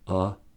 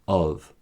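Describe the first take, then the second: First: The word is said with a reduced weak vowel. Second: The word is said with its full vowel.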